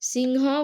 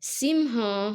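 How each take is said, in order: First: The word ends without a final breathy h. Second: The word ends with a final breathy h. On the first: This is how it is read in Odia. "ଓଡ଼ିଆରେ ଆମେ କଣ ପଢୁଛୁ? ... ସିଂହ ବୋଲି ପଢୁଛୁ" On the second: This is how it is read in Sanskrit. "ଏହାକୁ ସଂସ୍କୃତରେ କଣ ପଢିବା?"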